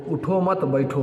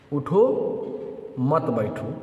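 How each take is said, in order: First: उठो मत बैठो run together without a break; no pause. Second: उठो, full stop, then मत बैठो together; stand-up order: break clearly after उठो, then say मत बैठो; pause after उठो. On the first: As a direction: join उठो straight onto मत बैठो. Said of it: "अगर ना ठहरा जाए". (उठो मत बैठो, बिना ठहरे मिलाकर) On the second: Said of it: "उठो" पर ठहरना लाजिम है". (उठो पर ठहरें, फिर मत बैठो) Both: Shown as a demonstration.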